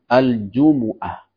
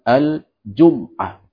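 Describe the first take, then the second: First: The m is followed by a u vowel. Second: The m is followed by no vowel. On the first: This is the most widely known reading. "dengan mendhammah huruf mim" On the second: This is a lightened form of the word. "dengan mensukun huruf mim"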